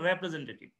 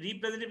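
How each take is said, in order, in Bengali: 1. প্রথম অক্ষরটি 'reh' এর মতো শোনায়। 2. প্রথম অক্ষরটি 'ree' এর মতো শোনায়। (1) "শুধু বলতে হবে রেপ্রেজেন্টেটিভ" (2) "রিপ্রেজেন্টেটিভ না"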